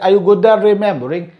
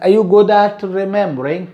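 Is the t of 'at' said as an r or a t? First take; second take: r; t. First: The t of 'at' sounds like r. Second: The t of 'at' is a clear t.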